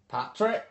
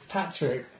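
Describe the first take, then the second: First: It is said in an Irish accent. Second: It is said in the speaker's ordinary accent.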